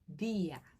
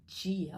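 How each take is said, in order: First: The word begins with a plain 'd' sound. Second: The word begins with a 'dj' sound. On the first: The speaker calls it right. "o D é aqui na ponta da língua" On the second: The speaker calls it wrong. "não é dia"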